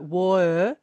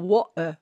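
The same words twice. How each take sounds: First: The two sounds run together without a catch. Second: A sharp throat catch separates the two sounds. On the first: "without doing the glottal stop, and it just sounds like" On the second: "But with the glottal stop, you get a"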